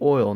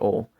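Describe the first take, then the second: First: It has the Northern Kentucky 'oy' glide. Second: It has the rest-of-Kentucky single 'aw' vowel.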